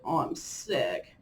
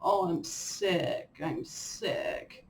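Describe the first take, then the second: First: Drawn-out lower mock moan; mock whiny complaining. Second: Slow whine, trailing into a breathy whimper; mock whiny complaining. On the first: After one sniffle, hammed-up sick moan. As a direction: moan it slowly, playing the martyr. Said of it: "I'll be like". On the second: Mimicking how she complains when sick, mock whine. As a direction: whimper it like a sulky patient. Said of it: "I'll say".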